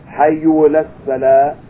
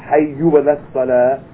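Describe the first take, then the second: No difference in how they are said.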